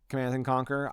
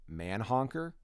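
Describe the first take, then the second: First: Every syllable of the title is said clearly. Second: The title is squashed into one garbled word. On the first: The speaker calls it right. "I could not pronounce it Command and Conquer" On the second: The speaker calls it wrong. "I had pronounced it Manhonker"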